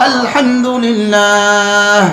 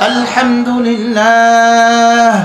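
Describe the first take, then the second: No difference in how they are said.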